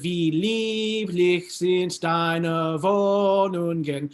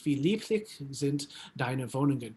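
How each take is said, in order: First: It follows the timing of the music. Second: It follows the timing of ordinary speech. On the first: "rhythmic context of the music" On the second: "speak it as if you were just speaking it in German"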